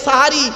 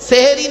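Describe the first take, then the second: First: The first vowel is an a sound. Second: The first vowel is an e sound. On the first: The speaker calls it right. "শব্দটা সাহারি" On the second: The speaker calls it wrong. "ওটা সেহরি নয়"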